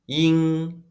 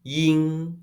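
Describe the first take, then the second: The two takes are said the same way.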